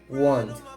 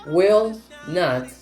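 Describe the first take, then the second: First: The two words are contracted into one syllable. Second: Two full words are said separately. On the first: "Para contraer will not podemos decir won't" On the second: "Tenemos will not"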